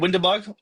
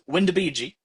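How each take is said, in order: First: The name is said in a plain English way. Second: The name is said with a playful Italian flavor.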